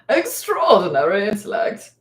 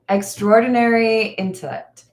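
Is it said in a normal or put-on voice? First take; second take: put-on; normal. First: It is said in a put-on character voice. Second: It is said in the speaker's normal voice.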